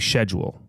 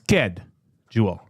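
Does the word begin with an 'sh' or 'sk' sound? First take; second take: sh; sk. First: The word begins with an 'sh' sound. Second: The word begins with an 'sk' sound. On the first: The speaker calls it wrong. "I just find it odd if you say schedule" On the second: The speaker calls it right. "It's sked"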